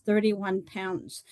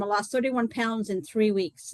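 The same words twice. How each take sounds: First: "thirty-one pounds" said slowly, each word weighted; slow emphasis. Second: Said in the usual way. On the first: Real, not acted. Repeating her weight loss to the group, slow and weighty.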